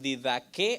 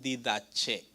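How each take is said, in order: First: The third consonant is a hard k sound. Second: The third consonant is a ch sound. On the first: "algunos dicen didaque" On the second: "algunos dicen didache"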